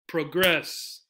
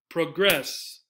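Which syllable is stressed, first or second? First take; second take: second; second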